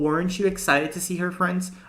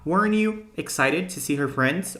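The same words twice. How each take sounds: First: The t joins 'you' as a 'ch' sound. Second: The t is dropped, giving an 'n-you' sound.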